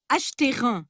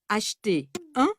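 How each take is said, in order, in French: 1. Une liaison relie les deux mots. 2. Les deux mots se prononcent sans liaison. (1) "On ne dit pas"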